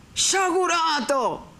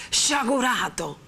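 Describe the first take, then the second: First: Much higher, slow, resonant shout; full-voiced cry. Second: Higher, slow ringing call; resonant cry. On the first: The friar thunders at vengeful Renzo, booming. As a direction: let the old power ring out. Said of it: "gridò il padre Cristoforo con una voce che aveva ripreso tutta l'antica pienezza". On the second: The friar thunders at Renzo again, ringing. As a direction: repeat it with full sonority. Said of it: "con una voce che aveva ripreso tutta l'antica pienezza e sonorità". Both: A narrator's reading.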